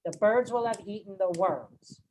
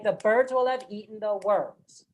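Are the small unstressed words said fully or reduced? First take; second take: reduced; reduced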